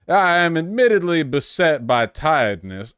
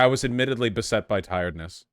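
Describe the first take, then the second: First: It is said in a Southern drawl. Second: It is said in his plain voice.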